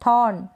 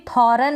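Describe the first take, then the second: First: "थॉर्न" में र लगभग गायब; सही मिसाल "थॉर्न", एक हिस्से में; मामूली आर. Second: दूसरा "थॉर्न" थॉ-रन, र पूरा; गलत मिसाल "थॉर्न", र के बाद अ; पूरा र, गलत रूप. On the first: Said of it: "आर को बिल्कुल मामूली सा प्रोनाउंस". ("थॉर्न" में लंबा ऑ, र दबाकर) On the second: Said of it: "इसको भी थॉर्न ना पढ़ें". ("थॉर्न" को दो हिस्सों में तोड़कर) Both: Shown as a demonstration.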